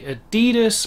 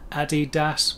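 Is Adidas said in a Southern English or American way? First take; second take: American; Southern English. First: It is said with an American pronunciation. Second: It is said with a Southern English pronunciation. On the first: "the Americans do tend to say Adidas more" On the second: "which would maybe be more like that in the South"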